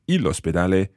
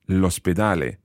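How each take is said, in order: First: The article is a separate syllable before the noun. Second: The article's vowel is dropped and joined to the noun. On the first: The speaker calls it wrong. "We don't say il ospedale" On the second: The speaker calls it right. "we say l'ospedale"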